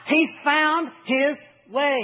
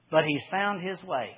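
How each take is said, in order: First: Drawn-out, high stress on He's; slow emphatic punchline. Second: Said in the usual way. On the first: Shown as a demonstration. Preacher driving home the point to his church, slow and emphatic. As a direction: lean into every word slowly.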